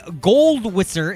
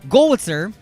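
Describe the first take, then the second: First: The name is said with a D sound. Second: The name is said without a D sound. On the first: The speaker calls it wrong. "It's not gold. There's no D" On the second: The speaker calls it right. "There's no D"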